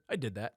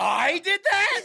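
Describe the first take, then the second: First: Soft, low, neutral delivery; low-key neutral. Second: High, slow, loud disbelief; shouted question. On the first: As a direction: say it flatly, arms folded. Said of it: "very low-key, neutral one". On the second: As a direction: yell it as a baffled question. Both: Pretend.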